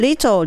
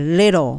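First: The middle consonant is a clear t sound. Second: The middle consonant sounds like a light l. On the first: The speaker calls it wrong. "little じゃなくて" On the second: The speaker calls it right. "little っていうともっと英語っぽい。だからt のとこをL の発音と同じベルの位置"

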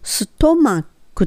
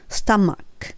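First: The first vowel sounds like 'oh'. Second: The first vowel sounds like 'uh'. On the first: The speaker calls it wrong. "ストマックってそのまま言うとこう書いてあるんですが" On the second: The speaker calls it right. "とじゃなくたになるのはスタマック"

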